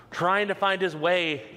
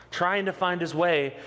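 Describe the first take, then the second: No difference in how they are said.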